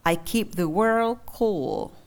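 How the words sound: The last word ends with a smooth pitch. The speaker calls it right. "đọc bình thường"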